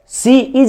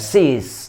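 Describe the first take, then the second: First: The two words are said separately in full. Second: The two words are merged into one short syllable. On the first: This is the full form, less fluent in speech. The speaker calls it wrong. "सी इज बोलने में थोड़ा सा problem होता है" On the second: This is the everyday spoken form. The speaker calls it right. "शॉर्ट form में आजकल लोग बोलते हैं"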